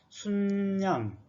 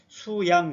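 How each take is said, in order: First: It is said sun-yang, with an added n. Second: It is said su-yang, with no added n. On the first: The speaker calls it right. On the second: The speaker calls it wrong. "수양 그러지 말고"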